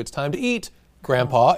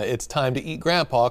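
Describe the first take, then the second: First: There is a pause before Grandpa. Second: It runs on without a pause before Grandpa.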